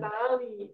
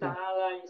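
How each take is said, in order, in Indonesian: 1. Kata ini berakhir dengan bunyi 'ee' panjang biasa. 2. Kata ini berakhir dengan bunyi geseran 'ai'. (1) "Jadi tidak boleh dibaca"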